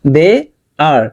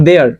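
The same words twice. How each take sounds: First: "they are" split, rising on "they"; word by word. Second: "They are" joined in one quick falling glide; run together. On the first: Teacher repeating for learners, "they are" as separate words. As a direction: lift "they", pause, then land "are" alone. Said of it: "আলাদা আলাদা word". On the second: Teacher showing translator-style sentence speech, "They are" linked. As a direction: blend "They are" into a single they-ar sound. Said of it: "একসাথে হয়ে গেছে". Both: Shown as a demonstration.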